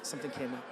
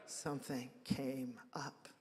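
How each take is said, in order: First: Said in the usual way. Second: Quiet, slow knowing repeat of Something came up; wry echo. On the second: Shown as a demonstration. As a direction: let Something came up hang quietly, drawn out and ironic.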